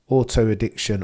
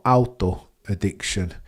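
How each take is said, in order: First: It is said in a plain, unaccented voice. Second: It is said with a German accent.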